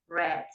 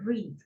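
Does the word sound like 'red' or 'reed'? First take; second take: red; reed. First: The vowel is short, sounding like 'red'. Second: The vowel is long, sounding like 'reed'. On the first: It is the past tense. "y en pasado como el color rojo" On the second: It is the present tense. "En presente leer"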